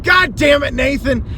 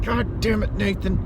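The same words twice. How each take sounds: First: High, loud mock curse; cursing the seller. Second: Mock curse. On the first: Messaging the seller, a high loud mock curse. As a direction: yell the name in fake outrage. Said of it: "I wanted to message him". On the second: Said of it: "cursing his name the entire day".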